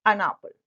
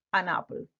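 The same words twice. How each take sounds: First: "an" hit hard and loud before apple; an punched loud. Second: Said in the usual way. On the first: Shown as a demonstration. Teacher to student, modelling the phrase, stressed an. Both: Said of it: "Yo te recomiendo que te grabes".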